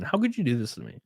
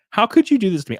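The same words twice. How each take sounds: First: Said in the usual way. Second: Higher, hammed-up wounded protest; mock anguished outcry. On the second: Streamer to blocked article site, mock anguished outcry. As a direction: cry it out in pretend betrayal. Repeats mock complaint, dramatically.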